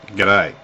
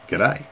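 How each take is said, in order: First: It is said in a cool, grudging tone. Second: It is said in a flirtatious, suggestive tone. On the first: The speaker is not fond of the listener. "I've seen you around. I'm not. I'm not too fond of you, mate" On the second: The speaker is trying to pick someone up. "like I want to pick you up"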